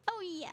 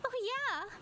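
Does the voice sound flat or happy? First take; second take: flat; happy. First: It is said flatly, without any happiness. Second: It is said brightly, sounding happy and keen. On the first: The speaker calls it wrong. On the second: The speaker calls it right.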